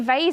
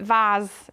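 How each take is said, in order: First: It is said with an American pronunciation. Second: It is said with a British pronunciation. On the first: "vase is American" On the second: "vase is how the Brits would say it"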